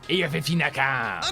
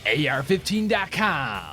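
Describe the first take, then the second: First: The phrase is spoken loosely, without crisp articulation. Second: The phrase is spoken slowly with crisp articulation. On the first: The speaker calls it wrong. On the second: The speaker calls it right.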